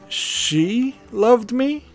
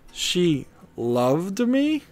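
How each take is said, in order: First: The word she carries the main stress. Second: The word loved carries the main stress. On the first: It is doubted that she was the one. "then it becomes a question" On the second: Her feelings were not known before. "it's like I knew her, but I didn't know she had these feelings for me"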